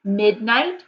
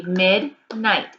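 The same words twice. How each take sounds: First: Said in the usual way. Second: "midnight" broken into two separate beats, mid, night; clap-it-out "mid... night", each part distinct; split into syllables. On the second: Shown as a demonstration. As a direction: say "midnight" syllable by syllable with a gap between. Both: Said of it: "break it into syllables".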